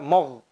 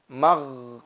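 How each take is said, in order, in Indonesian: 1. Suku kata 'm' terdengar tebal, seperti 'mo'. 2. Suku kata 'm' terdengar tipis, seperti 'ma'. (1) "tidak dibaca mogh" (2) "Jangan sampai ma dibaca menjadi tebal"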